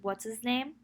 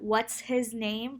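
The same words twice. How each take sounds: First: The h at the start of his is left out. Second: The h at the start of his is pronounced.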